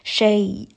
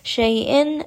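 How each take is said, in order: First: The word ends abruptly on a glottal stop. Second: The word ends with a nasal '-in' sound. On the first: The reading stops on this word. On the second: The reading continues without a stop.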